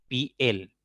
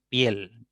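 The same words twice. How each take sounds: First: "piel" split in two, as pi, el; wrongly split syllables. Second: "piel" as one gliding syllable, pyel; one single syllable. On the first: Teacher showing the forbidden split, "piel" as two syllables pi-el. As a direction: break "piel" between the i and the e. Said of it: "no puedo separar esta palabra, por ejemplo, decir". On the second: Teacher giving the correct form, "piel" in one syllable. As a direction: join i and e in "piel" into one beat. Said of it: "Tiene que ser". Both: Shown as a demonstration.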